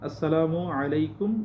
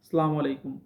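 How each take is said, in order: First: The first word is said in full as "assalamu". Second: The first word is clipped to "salam". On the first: The speaker calls it right. "সহিভাবে বলার চেষ্টা করবেন" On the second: The speaker calls it wrong. "এই বিকৃত শব্দগুলো"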